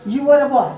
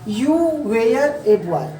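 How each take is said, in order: First: British-style demo, "were" as short wur, louder; British-style, "were a" linked as wur-uh; British phonetic. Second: Indian-style English, "were" as way-yar, "a" as ay; slow Indian-style reading, every word full; Indian phonetic. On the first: Teacher models for students, British-style sentence. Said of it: "British style में भी कैसे बोला जाता है". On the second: Teacher recalls own reading for students, Indian phonetic demo. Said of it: "कैसे पढ़ा Indian phonetic में". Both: Shown as a demonstration.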